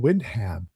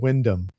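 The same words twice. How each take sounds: First: The name is said with the old mispronunciation. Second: The name is said with the British pronunciation. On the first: The speaker calls it wrong. "I was mispronouncing his name" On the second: The speaker calls it right. "instead of Wyndham"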